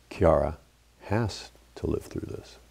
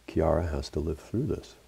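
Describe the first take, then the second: First: Has punched, the rest near-whispered and much softer; stress on has. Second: Through lifted on a rising tune; stress on through. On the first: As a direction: hit has hard, then hush the rest. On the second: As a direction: lean on through as it rises. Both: Retold or imitated. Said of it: "said it again with a different emphasis".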